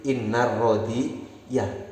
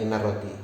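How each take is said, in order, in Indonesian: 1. Kata ini diakhiri dengan vokal 'a' tambahan di akhir. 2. Kata ini diakhiri tanpa vokal apa pun di akhir. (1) "kalau kemasukan inna menjadi innar rodi ya" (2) "Bukan hanya innar rodi"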